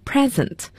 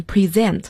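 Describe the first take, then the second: First: Present, stress on the first syllable, PRE-sent; noun stress. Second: Present, stress on the second syllable, pre-SENT; verb stress. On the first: Teacher showing the class the noun present, PRE-sent. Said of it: "如果做名词的话，读成present". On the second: Teacher showing the class the verb present, pre-SENT. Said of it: "大家要注意一下这个单词的发音，它做动词". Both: Shown as a demonstration.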